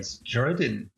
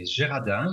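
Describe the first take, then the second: First: The name is said the English way. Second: The name is said the French way.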